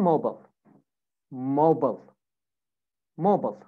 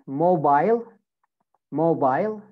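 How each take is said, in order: First: American "mobile", MO-bul; American pronunciation. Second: British "mobile", MO-bile; British pronunciation. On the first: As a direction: say "mobile" with a reduced last syllable. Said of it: "American accent". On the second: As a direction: rhyme the end of "mobile" with "mile". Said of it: "In British accent". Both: Shown as a demonstration.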